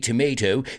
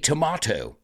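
First: It is said with an American accent. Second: It is said with a British accent. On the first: "you don't say tomato" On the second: "if you're British, ... you say tomato"

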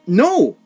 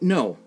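First: The word is shouted loudly. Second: The word is said calmly.

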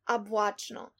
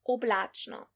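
First: The first vowel sounds like A. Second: The first vowel sounds like O. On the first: This is the dialect form. "unstressed O that is being pronounced as A" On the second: This is the standard form. "instead of"

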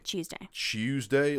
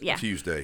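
First: The word begins with a 'ch' sound. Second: The word begins with a plain 't' sound. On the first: "Almost like C-H-E-W" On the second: "it is Tuesday"

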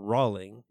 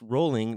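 First: The first syllable does not rhyme with 'bowl'. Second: The first syllable rhymes with 'bowl'. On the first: The speaker calls it wrong. "not Rowling" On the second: The speaker calls it right. "It's Rowling like bowling"

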